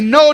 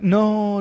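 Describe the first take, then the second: First: It is said firmly and with confidence. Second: It is said timidly, like a plea. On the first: The speaker holds authority over the enemy. The speaker calls it right. "you need to say it with assurance, with confidence" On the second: The speaker feels lower than the enemy. The speaker calls it wrong. "it's not like, no, devil, please"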